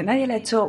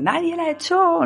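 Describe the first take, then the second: First: Said in the usual way. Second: High, drawn-out shouted denial; mock shout. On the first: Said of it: "Y dice". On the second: Susana at the door, slow high shout.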